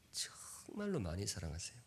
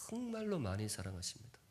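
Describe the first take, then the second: First: 정말로 whispered, breath only. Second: Soft and earnest. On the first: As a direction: breathe the line out as a secret. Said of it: "repeated as whisper". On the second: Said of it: "repeated softer". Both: Shown as a demonstration.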